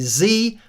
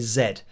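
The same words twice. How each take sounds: First: The letter is said the American way, zee. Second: The letter is said the British way, zed.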